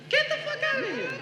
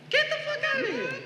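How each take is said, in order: No difference in how they are said.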